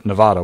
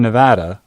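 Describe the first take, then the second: First: "Nevada" with middle vowel as in "father"; broad-a Nevada. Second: "Nevada" with middle vowel as in "cat"; short-a Nevada. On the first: Reporter offering the other pronunciation, "Nevada" with broad ah. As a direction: say "Nevada" as nuh-VAH-duh, open ah. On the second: Reporter naming the College of Southern Nevada, short-a "Nevada". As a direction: say "Nevada" as nuh-VAD-uh, short flat a. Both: Shown as a demonstration. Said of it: "whatever you prefer".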